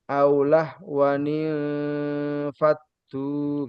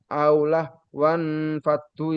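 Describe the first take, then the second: First: The words join with an inserted 'ni' sound. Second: The words join with no inserted 'ni' sound. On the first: The speaker calls it right. "Yang benar" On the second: The speaker calls it wrong. "itu salah bacanya"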